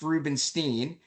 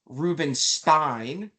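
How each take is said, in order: First: The name is said in its family pronunciation. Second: The name is read the way it is spelled. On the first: "it's pronounced Rubenstein" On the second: "my last name is actually spelled Rubenstein"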